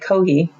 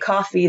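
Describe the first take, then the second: First: The middle consonant is an h sound. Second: The middle consonant is an f sound.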